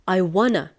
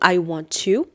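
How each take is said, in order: First: Want to is reduced to wanna, American style. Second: Want to is said fully, in British style. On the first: "in the American accent, we say I wanna" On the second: "in the British English, we say I want to"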